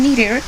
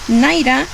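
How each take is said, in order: First: The word is said with an American pronunciation. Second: The word is said with a British pronunciation. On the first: "to the American one" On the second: "refers to the British pronunciation"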